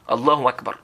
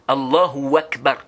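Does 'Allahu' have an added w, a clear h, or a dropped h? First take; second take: dropped h; added w. First: The h sound in Allahu is left out. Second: An extra w sound is added after Allahu. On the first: "ils ne prononcent pas le ha" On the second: "on dit Allahu et puis tu ajoutes le wa"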